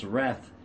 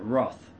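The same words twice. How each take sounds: First: "wrath" with an open a, like "rath"; American-style "wrath", vowel as in "cat"; American pronunciation of wrath. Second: "wrath" with a rounded vowel, like "roth"; "wrath" as many non-Americans say it, "roth"; others' pronunciation of wrath. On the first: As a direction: say "wrath" to rhyme with "math". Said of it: "in the United States". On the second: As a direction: say "wrath" to rhyme with "cloth". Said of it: "a lot of people pronounce that". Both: Shown as a demonstration.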